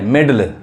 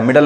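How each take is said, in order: First: मिडल said as "medal", with an e; मिडल with an open e in the first syllable; corrected vowel pronunciation. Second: मिडल with a short i, mi-dal; मिडल as people commonly misread it, mi-dal; wrong vowel pronunciation. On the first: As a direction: say मिडल as me-dal. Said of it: "मिडल नहीं, मिडल". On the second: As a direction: say मिडल with i as in "hit". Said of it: "मिडल नहीं". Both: Shown as a demonstration.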